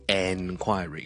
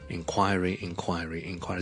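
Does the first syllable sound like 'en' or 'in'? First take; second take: en; in. First: The first syllable is a full, clear 'en'. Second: The first syllable is a light, reduced 'in'. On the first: The speaker calls it wrong. "唔需要咧读成enquiry" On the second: The speaker calls it right. "好像in 咁样嘅inquiry"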